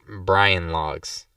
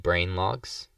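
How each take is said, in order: First: Brain is said in a funny accent, like Brian. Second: Brain is said in a plain, ordinary accent.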